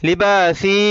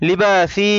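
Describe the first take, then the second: Both takes have the same delivery.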